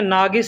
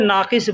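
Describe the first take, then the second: First: The middle consonant is a hard g sound. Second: The middle consonant is a deep q sound. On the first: This is how people commonly say it in Arabic. "अरबी में नागिस बोलते हैं" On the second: This is the Urdu way of saying it. "Urdu में नाक़िस बोलते हैं"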